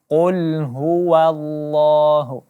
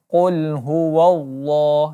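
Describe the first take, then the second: First: The wa syllable is pronounced light and thin. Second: The wa syllable is pronounced heavy and dark. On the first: The speaker calls it right. "baris wa tetap dibaca tarqiq ataupun tipis" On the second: The speaker calls it wrong. "kebanyakan orang membaca dengan bacaan tebal"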